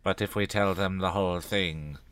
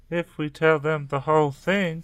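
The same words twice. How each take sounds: First: Said in the usual way. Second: Interrupting echo. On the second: A narrator's reading. Tracy cuts Dina off about telling, higher and insistent. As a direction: cut in, throwing the words back higher. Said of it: "Tracy interrupted".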